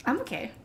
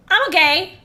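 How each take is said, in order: First: "I'm okay" said softly, falling; quiet "I'm okay". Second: "I'm okay" much louder and higher, rising. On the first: Streamer softly reassures chat, quiet murmur. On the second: Streamer loudly insists to chat that he's fine. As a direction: belt out "I'm okay" with a high rise. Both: Real, not acted.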